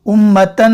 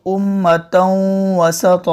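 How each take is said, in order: First: उम्मतन with a clear plain n; crisp n in उम्मतन; wrong reading. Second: उम्मतन वसत slow, noon nasalized; nasal ghunna. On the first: Teacher showing the reading to avoid. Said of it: "उम्मतन नहीं". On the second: Teacher demonstrating the nasal reading. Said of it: "नाक में आवाज़". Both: Shown as a demonstration.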